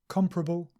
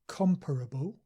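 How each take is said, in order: First: The word is said with three syllables. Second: The word is said with four syllables. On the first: "the more standard and common form is just three syllables" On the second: "sometimes people say these two words with four syllables"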